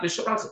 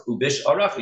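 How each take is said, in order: First: Visharecha said without the ayin; wrong pronunciation. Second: Uvisharecha with the ayin sounded; correct pronunciation. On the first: Retold or imitated. The teacher again mimics the careless form, no ayin. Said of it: "It's not visharecha". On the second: Shown as a demonstration. The teacher models the right form for the class, ayin sounded. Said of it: "You can't leave out the ayin".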